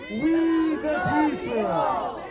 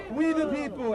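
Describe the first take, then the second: First: Loud, drawn-out proclamation; rallying shout. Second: Said in the usual way. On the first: Real, not acted. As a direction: shout it slowly for a crowd to join. Rallying crowd with Constitution's opening words.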